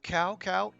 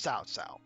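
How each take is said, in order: First: Each syllable begins with a k sound. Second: Each syllable begins with a ts sound. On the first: The speaker calls it wrong. "I know that looks like cow cow. It is not" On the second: The speaker calls it right. "it's pronounced like T S"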